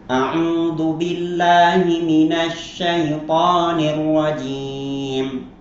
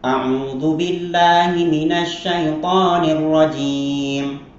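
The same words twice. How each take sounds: First: It is recited at a moderate, slightly quicker pace. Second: It is recited quickly. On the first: "Atau dengan tadwir agak cepat sedikit" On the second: "Atau dengan hadar"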